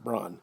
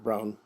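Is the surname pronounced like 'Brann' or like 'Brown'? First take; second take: Brann; Brown. First: The name sounds like bran, without ow. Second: The name sounds like the word brown. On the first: The speaker calls it right. "Braun is B R A N N" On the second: The speaker calls it wrong. "Not Brown"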